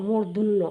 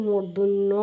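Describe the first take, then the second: Both takes have the same delivery.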